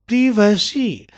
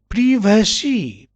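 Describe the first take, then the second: Both takes have the same delivery.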